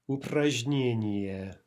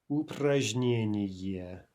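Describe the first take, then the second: The two takes are said the same way.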